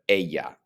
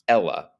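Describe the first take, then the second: First: The double L sounds like a Y. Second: The double L sounds like an English L. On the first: The speaker calls it right. "but ella. The double L in Spanish sounds like a Y" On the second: The speaker calls it wrong. "not Ella"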